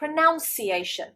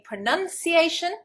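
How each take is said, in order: First: The second syllable sounds like 'nounce'. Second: The second syllable sounds like 'nun'. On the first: The speaker calls it wrong. "they get confused with the verb and they say pronunciation. Absolutely wrong" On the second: The speaker calls it right. "Rather than saying pronunciation"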